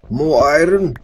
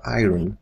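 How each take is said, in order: First: "iron" blurted high and loud, with an odd twist on the vowel; weird iron. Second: Said in the usual way. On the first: Real, not acted. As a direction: shout "More iron!" in a strange, excited way. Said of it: "did I say iron that way?". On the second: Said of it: "Instead of iron".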